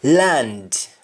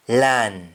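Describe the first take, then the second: First: English-style LAND, full "nd"; English pronunciation. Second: LAN stopping at the N; Jamaican pronunciation. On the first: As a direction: LAND with the final D sounded. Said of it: "ends with N D in English". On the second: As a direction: drop the D, just LAN. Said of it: "You only stop at N". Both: Shown as a demonstration.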